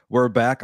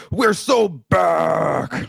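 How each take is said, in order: First: Said in the usual way. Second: Slow, drawn-out, higher "We're so back!" with each word stretched; hyped announcer call. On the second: Retold or imitated. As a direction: boom it into the microphone like a wrestling promo. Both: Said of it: "I wanted to take the microphone and be like".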